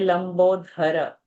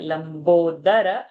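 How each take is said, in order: First: The middle consonant is an aspirated dh. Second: The middle consonant is a plain d. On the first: The speaker calls it wrong. "the common mistake is to say lambodhara" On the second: The speaker calls it right. "Lamba udara"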